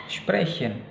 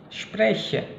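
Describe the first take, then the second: Both takes have the same delivery.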